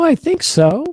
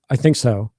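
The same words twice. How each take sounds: First: The voice rises at the end. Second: The voice falls at the end. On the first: The answer comes across as friendly. "if you go up, you're always more safe because it, it gives this friendly idea" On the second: The answer can come across as angry. "As opposed to"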